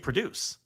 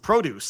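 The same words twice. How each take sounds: First: The stress is on the second syllable. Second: The stress is on the first syllable. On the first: It is the verb meaning to make or bring about. "if I say I'm going to produce some results, I say produce" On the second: It is the noun meaning fruit and vegetables. "When I say I'm going to the farmer's market, I say I'm going to get some produce"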